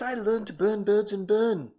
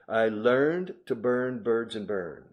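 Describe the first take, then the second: First: It is spoken in a British accent. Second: It is spoken in an American accent.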